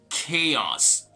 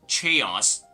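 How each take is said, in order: First: The word starts with a k sound. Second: The word starts with a ch sound. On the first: The speaker calls it right. "but rather chaos" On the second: The speaker calls it wrong. "remember the C H sound like ch... This is not going to be chaos"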